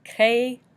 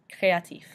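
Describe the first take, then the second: First: Créatif split into cray, ah, teef with pauses; syllable by syllable. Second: Said in the usual way. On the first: Shown as a demonstration. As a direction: break Créatif into separate syllables, final F sounded. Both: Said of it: "F being pronounced at the end".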